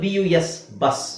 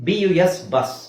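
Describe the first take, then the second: The two takes are said the same way.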